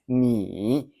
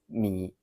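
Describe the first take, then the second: First: The third tone is said in full. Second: The third tone is said shortened. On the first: This is the complete form of the tone. "The full third tone is" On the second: This is how it is said in everyday speech. "Daily pronunciation is"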